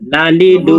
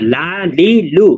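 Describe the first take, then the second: First: The syllables are short and said quickly. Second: The syllables are slow and drawn out. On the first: The speaker calls it right. "আরো দ্রুত বলতে হবে" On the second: The speaker calls it wrong. "এভাবে টেনে টেনে বলা যাবে না।"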